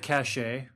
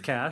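First: It is said with two syllables, ending in 'shay'. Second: It is said as one syllable, like 'cash'. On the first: "did you just pronounce it cachet?" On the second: "I think it's cash"

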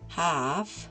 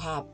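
First: The word ends with an f sound. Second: The word ends with a b sound. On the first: "al final con F" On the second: "al final con B"

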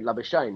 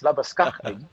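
First: The name is said the Australian way. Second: The name is said the South African way. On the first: He is claimed by Australia. The speaker calls it wrong. "it can't be Labuschagne, I mean, because then he's playing for Australia" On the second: He is claimed by South Africa. The speaker calls it right. "But when it's Marnus Labuschagne, then he's all us"

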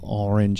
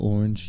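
First: It is said carefully in a neutral accent. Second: It is said with a New York accent. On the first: The speaker calls it right. "slow down and enunciate and say orange" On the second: The speaker calls it wrong. "instead of orange"

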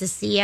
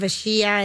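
First: The middle consonant is an 's' sound. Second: The middle consonant is a 'sh' sound. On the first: The speaker calls it right. "it's a Sia" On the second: The speaker calls it wrong. "Instead of a Shia"

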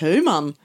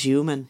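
First: The name is pronounced the German way. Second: The name is pronounced the English way. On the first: The speaker calls it wrong. "Ik dacht, het is Duits" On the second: The speaker calls it right. "Het is human"

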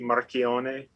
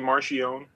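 First: The name has an Italian pronunciation. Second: The name has an Americanized pronunciation. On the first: This is the technically correct version. "technically it should be Marchione" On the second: This is the family's habitual version. "I just say Marchione. That's what I grew up"

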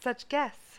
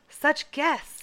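First: It is said with less enthusiasm. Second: It is said with lots of enthusiasm.

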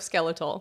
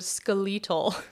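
First: The word is pronounced the American way. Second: The word is pronounced the Australian way. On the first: "instead of skeletal" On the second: "the way that he says the word skeletal"

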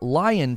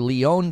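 First: The name sounds like the animal 'lion'. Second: The name sounds like 'lee-on'. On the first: The speaker calls it wrong. "I always want to say Lion" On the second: The speaker calls it right. "it's actually pronounced Leon"

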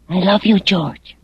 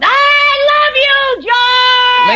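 First: It is said quietly. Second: It is said loudly.

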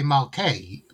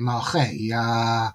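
First: The middle consonant is a hard k sound. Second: The middle consonant is a guttural ch sound. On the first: The speaker calls it wrong. "people might say Malkei" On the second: The speaker calls it right. "but it's actually Malchei"

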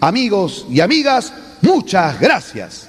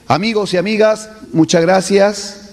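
First: It is said forcefully, with emphasis. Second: It is said weakly, without emphasis.

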